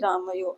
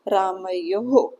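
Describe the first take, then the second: First: The word ends without a final breathy h sound. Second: The word ends with a final breathy h sound. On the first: The speaker calls it wrong. "आप कोई ऐसे नहीं बोलना कि रामयो" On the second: The speaker calls it right. "आपको बोलना है रामयोः"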